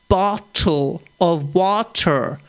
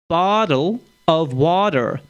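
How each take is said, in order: First: The t is said clearly, British style. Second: The t sounds like a d, American style.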